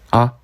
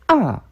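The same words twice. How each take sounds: First: The pitch stays light and short without contour. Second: The pitch falls sharply from high to low. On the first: "가볍게 그냥 툭 하고 읽어주시면 돼요" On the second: "아 하고 떨어지는 성조"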